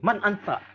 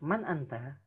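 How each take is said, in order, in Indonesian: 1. Pertanyaannya terdengar kasar dan menantang. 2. Pertanyaannya terdengar tenang dan biasa saja. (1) "itu kesannya kayak lagi, siapa kamu? Siapa lu?" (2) "Intonasinya biasa aja"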